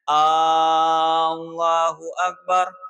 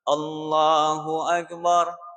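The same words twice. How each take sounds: First: The opening A sound is drawn out long. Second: No vowel is drawn out beyond normal length. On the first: The speaker calls it wrong. "tidak boleh memanjangkan lapas hamzahnya" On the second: The speaker calls it right.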